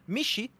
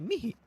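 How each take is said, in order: First: The middle consonant is a sh sound. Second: The middle consonant is an h sound. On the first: The speaker calls it wrong. "you do not say this name Mishi" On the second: The speaker calls it right. "you say Mihi"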